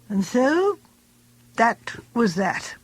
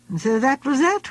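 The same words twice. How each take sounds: First: It sounds final and conclusive. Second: It sounds open, not conclusive.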